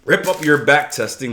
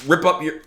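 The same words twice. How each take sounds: First: "Rip up your back testing" said louder and punchier; a manly, forceful "Rip up your back testing"; more manly. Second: A limp, half-hearted "rip up your"; a feeble first try at "rip up your"; weak rip. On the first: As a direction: hit "up" hard, like you mean it. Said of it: "That's more manly". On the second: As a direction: say "rip up your" timidly, then trail off. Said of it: "ah, it's a horrible rip". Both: Shown as a demonstration.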